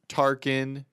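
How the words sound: The name is said with an American accent. "because the I is like very American"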